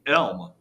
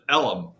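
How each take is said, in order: First: The word is said as one syllable. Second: The word is said as two syllables. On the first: "the actual real name of the area is called Deep Elm" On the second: "they pronounce it Ellum"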